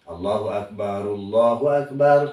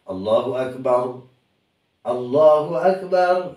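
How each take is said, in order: First: The two phrases run together without a pause. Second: A pause separates the two phrases. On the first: "kalau wasol ya wasol" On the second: "kalau mau berhenti dipisah-pisah boleh"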